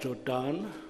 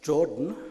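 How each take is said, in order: First: The name is pronounced in an Afrikaans style. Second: The name is pronounced without an Afrikaans style. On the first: The speaker calls it wrong. "which is not Jordan" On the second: The speaker calls it right. "but Jordan"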